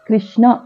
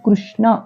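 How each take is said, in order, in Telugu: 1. మొదటి అక్షరాన్ని 'i' అచ్చుతో పలుకుతారు. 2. మొదటి అక్షరాన్ని 'ru' ధ్వనితో పలుకుతారు. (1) "గుణింతల్లో ఇకారం కలిపినట్లుగా కృష్ణ అని పలుకుతాం" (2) "రుకారం కృష్ణ అని పలకాలి"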